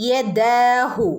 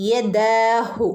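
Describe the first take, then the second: No difference in how they are said.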